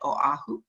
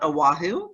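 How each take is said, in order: First: Oahu is said with a local Hawaiian pronunciation. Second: Oahu is said with a mainland American pronunciation.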